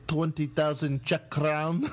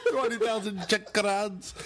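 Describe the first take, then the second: First: Put-on slow, lightly accented offer; Czech producer. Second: Put-on laughing Czech accent.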